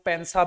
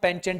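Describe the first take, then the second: First: It has an s sound and ends nasally. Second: It has a ch sound and ends in t. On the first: "काफी लोग इसको पेंसा भी पढ़ते हैं" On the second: "इस word को हम पेंचेंट पढ़ते हैं"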